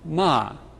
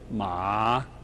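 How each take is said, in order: First: The pitch falls sharply from high. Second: The pitch dips low then rises. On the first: It means a curse. "In the falling tone" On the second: It means a horse. "The dipping tone"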